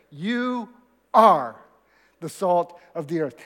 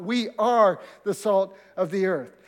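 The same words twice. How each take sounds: First: Slow, weighty You ... are ... the salt of the earth; stress on You and are. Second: Said in the usual way. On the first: Shown as a demonstration. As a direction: lean hard on "You" and "are", pausing after each. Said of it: "that is important because it's not debatable". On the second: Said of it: "it's not debatable".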